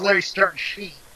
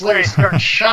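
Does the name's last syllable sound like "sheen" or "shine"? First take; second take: sheen; shine. First: The last syllable rhymes with "seen". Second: The last syllable rhymes with "line". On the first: The speaker calls it wrong. "I used to think it was Larry Stern Sheen" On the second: The speaker calls it right. "That's Larry Stern Shine"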